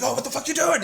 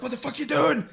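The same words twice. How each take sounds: First: Much higher, louder mock outraged yell; imitating angry brother. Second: Much higher, louder outraged yell; mock the brother's fury, pitched way up; imitating angry brother. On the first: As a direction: play the furious big brother, squeaky. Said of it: "he'd get even more angry". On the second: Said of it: "he's just getting more and more angry".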